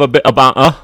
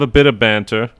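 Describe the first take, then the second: First: It is said in a British accent. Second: It is said in the speaker's ordinary accent.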